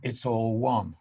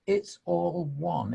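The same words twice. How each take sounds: First: Said in the usual way. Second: "It's all one" drawn out slowly, leaning on "all"; slow reflective repeat; slow, savoured. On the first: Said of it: "he just goes". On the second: Shown as a demonstration. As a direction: let "It's all one" sink in, unhurried.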